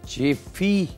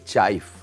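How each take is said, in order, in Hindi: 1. शब्द के अंत में एक अतिरिक्त स्वर ध्वनि जुड़ी है। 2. शब्द व्यंजन ध्वनि पर खत्म होता है। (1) "चेफी भी इसका नाम है। इसका दो तीन मुख्तलिफ प्रोनाउंस कहा जाता है" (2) "लेकिन एक्चुअल ये चाइफ"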